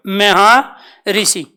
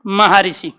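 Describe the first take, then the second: First: Maharshi drawn out very slowly, each syllable separate; slow pronunciation. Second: Said in the usual way. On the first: Shown as a demonstration. Teacher slowly sounds out Maharshi for students. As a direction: spell out Maharshi by sound, unhurried. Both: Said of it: "क्या उच्चारण करोगे?".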